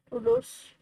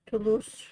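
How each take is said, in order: First: "Toulouse" squeaked much higher; high test Toulouse. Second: "Toulouse" said flat as too-loose; plain Toulouse. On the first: Testing the name again for a friend, much higher. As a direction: pitch "Toulouse" way up. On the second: Testing the silent E for a friend, plainly. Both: Shown as a demonstration. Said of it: "Maybe the E is silent".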